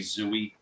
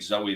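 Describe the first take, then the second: First: The first vowel sounds like 'oo'. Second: The first vowel sounds like 'oh'. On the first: The speaker calls it wrong. "they say Zooey or some other dumb shit" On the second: The speaker calls it right. "instead of saying Zoe"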